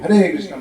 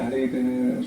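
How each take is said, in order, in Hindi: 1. यह वाक्यांश ज़ोर से कहा गया है। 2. यह वाक्यांश धीरे से कहा गया है। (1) "जोर से" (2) "धीरे बोलेंगे"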